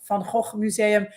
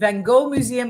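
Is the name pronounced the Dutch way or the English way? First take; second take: Dutch; English. First: The name is said with a Dutch pronunciation. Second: The name is said with an English pronunciation.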